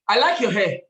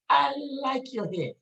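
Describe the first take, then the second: First: It is said in a harsh voice. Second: It is said in a soft voice.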